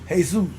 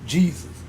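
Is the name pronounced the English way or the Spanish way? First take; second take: Spanish; English. First: The name is pronounced the Spanish way. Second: The name is pronounced the English way. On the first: "If you want to say it in, in Spanish" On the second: "if you want to call it English"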